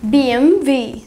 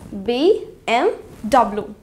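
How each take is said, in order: First: The last letter is said as V. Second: The last letter is said as W. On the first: The speaker calls it right. "So इसकी pronunciation है B M V" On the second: The speaker calls it wrong. "इस word को हम इसी तरीके से pronounce करते हैं, which is also wrong"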